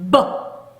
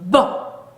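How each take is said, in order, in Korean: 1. 터지기 전에 소리가 먼저 울려요. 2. 터지기 전에 소리가 먼저 울려요.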